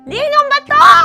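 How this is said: It is said laughing, as if being tickled.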